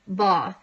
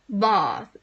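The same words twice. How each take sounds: First: Said in the usual way. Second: "Bath" tried in a posh English accent with a long "ah", "bɑθ"; a half-hearted stab at a posh English "Bath"; bad posh accent. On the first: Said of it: "the posh way of saying bath". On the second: Shown as a demonstration. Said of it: "I can't do a posh accent".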